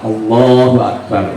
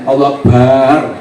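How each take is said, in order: First: The vowel after the b is short. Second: The vowel after the b is drawn out long. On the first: The speaker calls it right. "ini harus betul" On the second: The speaker calls it wrong. "baknya itu panjang"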